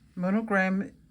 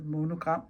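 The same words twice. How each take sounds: First: The word has an English pronunciation. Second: The word has a Danish pronunciation. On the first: "Apparently monogram is the same as" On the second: "a monogram på dansk"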